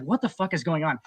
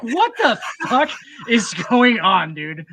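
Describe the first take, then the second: First: Said in the usual way. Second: High, loud and slow, stretching out the disbelief; baffled outburst. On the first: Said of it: "I was like". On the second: Retold or imitated. Recalling a Monty Python movie, a baffled, drawn-out outburst. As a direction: replay the total confusion of that first viewing. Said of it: "And I was like".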